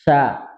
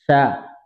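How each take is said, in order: The two takes are said the same way.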